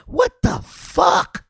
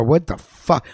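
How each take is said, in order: First: High, slow, drawn-out what the fuck; like you can't believe what you just heard; stunned disbelief. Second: Said in the usual way. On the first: Real, not acted. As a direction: let the disbelief stretch the words out high and slow. Repeating the line in disbelief.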